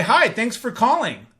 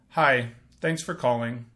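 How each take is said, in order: First: Bright, eager phone greeting; excited greeting. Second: Said in the usual way. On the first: Shown as a demonstration. Sales rep greeting a caller with excitement. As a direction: answer like you're glad they called. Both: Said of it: "when I demonstrate that".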